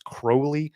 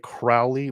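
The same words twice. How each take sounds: First: The name rhymes with 'holy'. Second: The name does not rhyme with 'holy'. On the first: This is how the man himself said his name. "Crowley himself liked to pronounce it as Crowley" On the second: This is how most people say the name. "a lot of people say Crowley"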